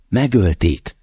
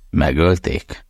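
First: Megölték said as a final, falling statement; flat statement. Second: Megölték with a rising question tune; incredulous question. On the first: Mother tells her son the news, Megölték falling flat. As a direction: drop the pitch on Megölték, no doubt in it. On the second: Son repeats his mother's news, megölték rising in disbelief. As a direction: let megölték lift at the end in disbelief. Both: Acted.

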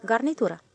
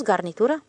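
First: Garnitură stated with a falling tune; firm confirmation. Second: Garnitură asked with a rising tune; questioning echo. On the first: The stationmaster confirms the word garnitură, falling. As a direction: confirm garnitură flatly, voice dropping at the end. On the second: The switchman questions the word garnitură, rising. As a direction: echo garnitură doubtfully, voice going up at the end. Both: A narrator's reading.

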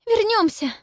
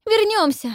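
First: Coughing up water. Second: High, loud, frantic repeat; frantic cry. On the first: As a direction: gasp it out between coughs. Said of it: "кашляя говорит Пиппа". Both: A narrator's reading.

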